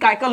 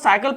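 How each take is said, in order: First: The word begins with a k sound. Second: The word begins with an s sound. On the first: The speaker calls it wrong. "हमने इसको कभी काइकल नहीं पढ़ा" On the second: The speaker calls it right. "हमने इसको साइकिल पढ़ा"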